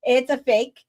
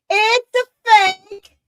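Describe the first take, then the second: First: Said in the usual way. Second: High, loud, drawn-out exclamation; emphatic outburst. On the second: Real, not acted. Host hammering home to viewers that NASA is fake, emphatic. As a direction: belt it out slowly for emphasis. Repeats the claim far more forcefully.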